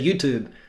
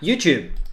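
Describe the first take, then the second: First: It is said in an American way. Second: It is said in a non-American way. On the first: The speaker calls it right. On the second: The speaker calls it wrong.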